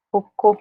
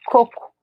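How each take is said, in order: First: Cocô with the weight on cô; stress on last syllable. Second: Coco with the weight on the first co; stress on first syllable. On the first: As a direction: hit the final cô of Cocô. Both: Shown as a demonstration. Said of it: "stressed sound de um é aqui".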